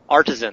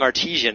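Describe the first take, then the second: First: The word has no extra 'ee' vowel sound. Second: The word has an extra 'ee' vowel sound. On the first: The speaker calls it right. "There's only one I in that word" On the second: The speaker calls it wrong. "I'm constantly saying artesian as though it's a bread"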